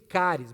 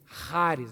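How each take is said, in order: First: It begins like the Portuguese word 'cárie'. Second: It does not begin like the word 'cárie'. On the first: The speaker calls it wrong. "Algumas pessoas dizem caris, mas cari parece cárie dentária" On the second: The speaker calls it right. "faz a pronúncia certa aí comigo"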